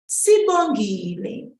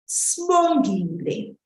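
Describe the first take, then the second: First: The vowel after the first S is pronounced. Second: The vowel after the first S is dropped.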